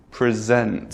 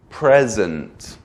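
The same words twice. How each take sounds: First: "present" as the verb, pri-ZENT; second-syllable stress. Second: "present" as the noun, PREZ-ent; first-syllable stress. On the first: Teacher contrasting either side, "present" stressed at the end. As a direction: punch the last syllable of "present". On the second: Teacher contrasting either side, "present" stressed at the front. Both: Shown as a demonstration. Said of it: "if you add stress to either side".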